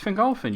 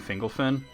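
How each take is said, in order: First: The stress is on the middle syllable. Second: The stress is not on the middle syllable. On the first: The speaker calls it right. "You put the accent on the second to last syllable" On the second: The speaker calls it wrong. "he's always saying Fingolfin"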